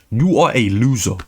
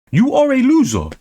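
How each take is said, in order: First: Said in the usual way. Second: Yelled insult. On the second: Shown as a demonstration. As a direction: shout it the second time.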